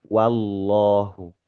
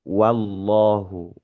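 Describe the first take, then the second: The two takes are said the same way.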